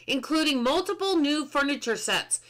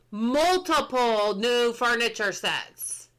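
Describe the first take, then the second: First: Said in the usual way. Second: Multiple new furniture sets, drawn out slowly; slow emphatic read. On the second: Real, not acted. Streamer savouring patch notes to chat, slow and emphatic. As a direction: savour each word slowly.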